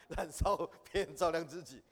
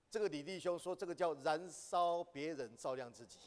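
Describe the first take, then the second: First: Laughing while repeating the saying. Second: Said in the usual way. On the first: Shown as a demonstration. Teacher repeats the saying to the class, laughing. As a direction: chuckle through the phrase, amused at it.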